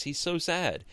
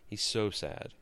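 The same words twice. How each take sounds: First: Mock pity. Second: Quiet repeat. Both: Shown as a demonstration.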